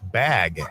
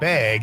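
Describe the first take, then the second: First: It is said in a standard accent. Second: It is said in a Wisconsin accent.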